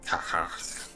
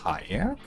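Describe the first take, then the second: First: The middle consonant is a throaty sound. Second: The middle consonant is a smooth glide. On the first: "very throaty kind of, not even a word, just a noise" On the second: "Most people pronounce it as kayak"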